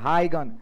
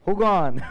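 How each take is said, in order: First: It begins with a clear 'high' sound. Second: It begins with a short 'hoo' sound. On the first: "CBSE" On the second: "Bihar board"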